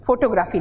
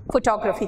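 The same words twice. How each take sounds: First: फोटोग्राफी with full "o" vowels and long "graa"; Hindi-style pronunciation. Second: फोटोग्राफी said English-style, stress on the second syllable; English pronunciation. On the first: Teacher shows students the rejected form, फोटोग्राफी as "fo-to-graa-fee". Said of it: "फोटोग्राफी नहीं कहते". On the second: Teacher shows students how English says फोटोग्राफी, fuh-TOG-ruh-fee. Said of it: "English में फोटोग्राफी को क्या कहते हैं?". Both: Shown as a demonstration.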